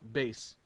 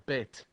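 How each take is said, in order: First: The word ends with an s sound. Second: The word ends with a t sound. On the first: "they use a soft T, which is pronounced base"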